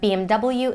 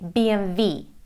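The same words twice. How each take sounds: First: The letters are spelled out in English. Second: The letters are spelled out in German. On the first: "in the U S and Great Britain" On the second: "it's a German brand and they say"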